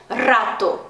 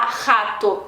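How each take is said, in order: First: Rato opening on a long rolled "rr"; strong trilled r. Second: Rato starting with a throaty h-like r; raspy Portuguese r. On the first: Teacher showing learners Spanish rato, rolled r. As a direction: hit rato with a strongly vibrated r. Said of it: "bem forte". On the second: Teacher showing learners what to avoid, rato with h sound. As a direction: say rato as "hato", no trill. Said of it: "não posso falar rato". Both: Shown as a demonstration.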